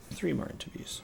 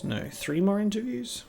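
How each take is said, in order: First: Soft whisper to himself. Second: Said in the usual way. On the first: Real, not acted. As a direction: whisper it under the breath.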